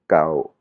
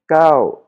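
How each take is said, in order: First: "Kao" dropped low. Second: "Kao" very high and loud, then dropping. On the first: Teacher says "something old", low tone on "Kao". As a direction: keep "Kao" down, no lift. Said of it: "avec une intonation basse". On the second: Teacher gives the number nine, high tone on "Kao". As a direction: launch "Kao" high and forceful. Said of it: "avec l'intonation aiguë". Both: Shown as a demonstration.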